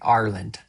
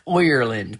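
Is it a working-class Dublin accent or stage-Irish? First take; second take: Dublin; stage-Irish. First: It has a working-class Finglas Dublin sound. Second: It has an exaggerated, leprechaun-like stage-Irish sound.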